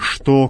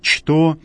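First: The word begins with an 'sh' sound. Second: The word begins with a 'ch' sound. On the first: This is the modern Russian reading. The speaker calls it wrong. "а не «что», как в русском языке" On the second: This is the Church Slavonic reading. The speaker calls it right. "именно так произносится в церковнославянском языке, через «че»"

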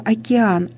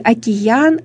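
First: The vowels meet with no glide. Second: A y sound is inserted between the vowels. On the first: This is the standard pronunciation. "вместо океан" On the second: This is a colloquial pronunciation. "или океан вместо океан"

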